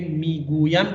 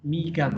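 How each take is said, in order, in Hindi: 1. यह शब्द अपने पूरे रूप में बोला गया है। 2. यह शब्द संक्षिप्त रूप में बोला गया है। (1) "मीगुयम के बजाय" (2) "आम बोलचाल की जबान में"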